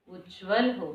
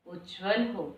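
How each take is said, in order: Both takes have the same delivery.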